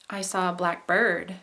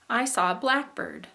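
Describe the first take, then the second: First: Black and bird are said as two separate words. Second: Black and bird run together as one compound word. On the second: It names a particular kind of bird. "That is a compound word. Um, if we run it together"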